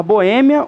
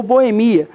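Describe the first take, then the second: First: Boêmia stressed on the Ê, bo-Ê-mia. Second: Boemia stressed on MI, bo-e-MI-a. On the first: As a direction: land Boêmia on its second syllable. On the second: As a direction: move the stress of Boemia onto MI. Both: Shown as a demonstration. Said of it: "Você pode falar".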